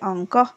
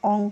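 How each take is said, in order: First: The word ends with a breathy h sound. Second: The word ends without a breathy h sound. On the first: "শেষে বিসর্গর উচ্চারণটা আমি করেছি" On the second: "অঙ্ক না বলে"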